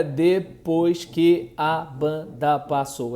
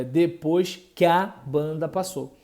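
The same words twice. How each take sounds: First: "que a" kept as two syllables, slow; separated syllables. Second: "que a" melted into "qua", one syllable; elided syllables. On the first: Teacher showing the wrong reading, "que a" kept apart. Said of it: "não é". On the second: Teacher giving the right reading, "que a" elided. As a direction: glide "que" into "a" as a single syllable. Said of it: "é". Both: Shown as a demonstration.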